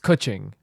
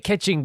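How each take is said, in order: First: The name is said as Kuching. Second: The name is said like the word catching. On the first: The speaker calls it right. "but it's Kuching, right?" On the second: The speaker calls it wrong. "I always say catching"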